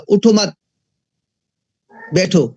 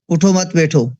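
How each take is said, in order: First: There is a pause after the word mat. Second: It runs straight through without a pause. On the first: "तो इसी sentence को वो यूँ कहेगा" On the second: "तो क्या समझेंगे हम?"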